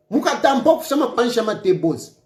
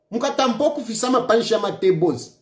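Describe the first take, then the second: No difference in how they are said.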